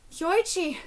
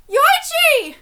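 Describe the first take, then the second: First: Said in the usual way. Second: High, loud call of a name; anguished cry, pitch leaping up. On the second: Acted. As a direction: shout the name in distress. Name cried out while reading manga.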